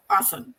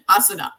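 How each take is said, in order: First: Asan ending on the N; silent final A. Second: Asana ending in a voiced "na"; final A sounded. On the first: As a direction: say "asan" with no closing A. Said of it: "without the A at the end". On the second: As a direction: say "asana" with the last A pronounced. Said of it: "the A at the end". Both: Shown as a demonstration.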